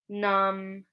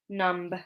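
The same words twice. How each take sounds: First: The word ends with an M sound only. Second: The word ends with an audible B sound. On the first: The speaker calls it right. "we just pronounce it like an M at the end" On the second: The speaker calls it wrong. "So we don't say"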